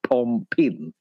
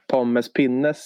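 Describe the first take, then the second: First: The name is clipped to two syllables. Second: The name is said in full, four syllables. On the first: This is how many other people say it. "det är många som säger pompin" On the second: This is how the speaker said it when younger. "Pommes pinnes sa jag när jag var yngre"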